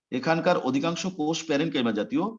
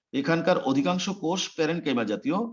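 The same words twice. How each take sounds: The two takes are said the same way.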